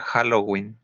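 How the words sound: It is said with Spanish-style sounds. "Esa es una fonética derivada del español"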